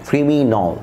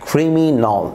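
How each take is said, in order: No difference in how they are said.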